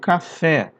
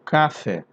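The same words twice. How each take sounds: First: The stress is on the last syllable. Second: The stress is on the first syllable. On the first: The speaker calls it right. "eu falo café. Então esse K aqui é fraco" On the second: The speaker calls it wrong. "eu não falo café"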